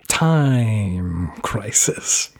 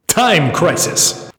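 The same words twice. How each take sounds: First: It is said in his normal speaking voice. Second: It is said in a booming arcade announcer voice.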